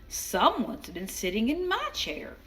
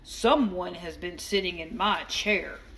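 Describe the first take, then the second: First: It is said in a middle-sized voice. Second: It is said in a great big voice.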